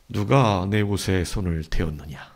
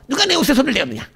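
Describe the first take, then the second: First: The question is spoken at a slow pace. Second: The question is spoken at a fast pace. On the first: "아니면" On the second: "예수님이 빨리 말했을까?"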